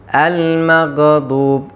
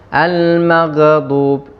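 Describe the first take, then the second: The two takes are said the same way.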